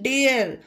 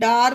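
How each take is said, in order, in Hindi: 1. स्वर एक 'air' ध्वनि है। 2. स्वर एक खुली 'ah' ध्वनि है। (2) "डार नहीं"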